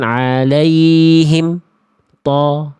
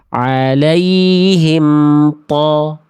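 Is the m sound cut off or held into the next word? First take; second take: cut off; held. First: The m is cut off with a brief stop. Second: The m is held and flows into the next word. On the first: The speaker calls it wrong. "Bukan ... Jadi kayak saktah, berhenti sejenak" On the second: The speaker calls it right. "Harusnya emnya diantar"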